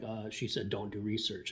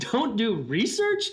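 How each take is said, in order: First: Low, quiet, dead flat confirmation; flat deadpan repeat. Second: Slow, higher, louder disbelieving question, "research" rising with a laugh; incredulous echo. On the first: Confirming to Jeff what the president just said, low and deadpan. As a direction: drop it low and flat, "Don't do research" stated like a plain fact. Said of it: "I'm like". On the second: Echoing the president's advice back to Jeff, laughing in disbelief. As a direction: stretch "Don't do research?" out slowly, higher and louder, "research" climbing up in disbelief. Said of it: "So that really shocked me".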